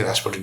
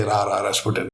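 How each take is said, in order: First: Said in the usual way. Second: RA RA RASPUTIN with the repeated lead-in, quick; song-hook version. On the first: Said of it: "You can't just say Rasputin". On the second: Shown as a demonstration. Quizmaster correcting a plain answer, song-hook version. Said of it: "You have to say Ra Ra Rasputin".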